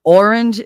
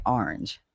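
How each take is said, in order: First: "Orange" loud and slow, standard first vowel; careful, stretched "Orange"; correct pronunciation. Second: "orange" in Jersey style, "ahr-inj"; lower, casual Jersey "orange"; own Jersey pronunciation. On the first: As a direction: announce the standard "Orange" firmly. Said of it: "Orange is correct". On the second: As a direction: open "ah" starting "orange". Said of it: "I say it orange". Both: Shown as a demonstration.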